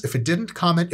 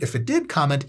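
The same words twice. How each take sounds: First: Didn't lifted with a rising tune; stress on didn't. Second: Did punched with a falling tune; mock-stern nudge to comment, stressing did. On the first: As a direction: lean into didn't, then comment. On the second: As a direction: land hard on did. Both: Shown as a demonstration.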